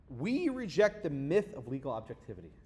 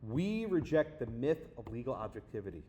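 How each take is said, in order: First: "We reject the myth of legal objectivity" read clearly, stress on "We"; reading it out firmly. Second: Repeated with disbelief. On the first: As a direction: present the slogan as a quote, deliberate. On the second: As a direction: say it again as if you can't believe it. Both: Retold or imitated.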